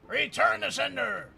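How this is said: It is said in a put-on gruff soldier voice.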